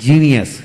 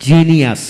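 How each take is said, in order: Both takes have the same delivery.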